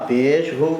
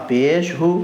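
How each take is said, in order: Both takes have the same delivery.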